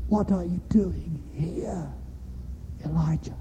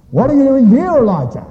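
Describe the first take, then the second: First: Still small voice. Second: Loud, high, demanding question; stern challenge. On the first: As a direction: ask it gently, almost in a whisper, word by word. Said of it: "a voice to him". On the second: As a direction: thunder it at Elijah as a rebuke. God's first question, contrasted with second. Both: Acted.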